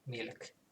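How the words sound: It is said with a clear L sound. "with a Finnish accent, you would actually say uh, milk"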